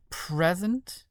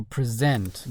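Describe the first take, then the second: First: "Present" as PRES-ent, stress on the first syllable; "Present" with first-syllable stress, noun reading. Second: "present" as pre-SENT, stress on the second syllable; "present" with second-syllable stress, verb reading. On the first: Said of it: "or present?". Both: Shown as a demonstration.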